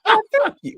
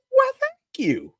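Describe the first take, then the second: First: Put-on high, loud prim girl voice; a proper little lady; imitating little girl. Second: Put-on very high, slow prim girl voice; drawn-out princess thanks; imitating little girl. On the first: Father mimics a little girl politely thanking, high prim voice. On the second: Father repeats a little girl's prim thanks, very high and slow.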